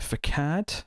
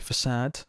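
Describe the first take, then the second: First: The middle consonant is a hard k sound. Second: The middle consonant is a soft s sound. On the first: The speaker calls it wrong. "Or sorry" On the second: The speaker calls it right. "Or sorry"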